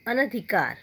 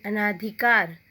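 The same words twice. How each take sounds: First: अनधिकार with a short a after न; the corrected अनधिकार, no long aa; अनधिकार said right; correct pronunciation. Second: अनाधिकार said with a long aa after न; the misspelt अनाधिकार, aa in the middle; अनाधिकार as the wrong form; wrong spelling-pronunciation. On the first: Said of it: "उसको शुद्ध कैसे करते हैं". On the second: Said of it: "अशुद्ध शब्द". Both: Shown as a demonstration.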